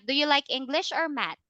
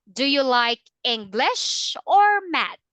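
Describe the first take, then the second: First: The pitch stays flat through the question. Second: The pitch rises on English, then falls on math. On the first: The speaker calls it wrong. "Not ... Not that one" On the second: The speaker calls it right. "there is a rising and falling intonation"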